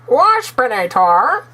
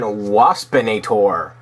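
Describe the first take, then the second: First: It is said in a put-on Waspinator impression. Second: It is said in his normal voice.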